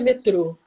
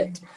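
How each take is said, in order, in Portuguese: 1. É dita do jeito do português brasileiro. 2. É dita do jeito do português europeu. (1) "No Brasil é que é" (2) "Aqui também é"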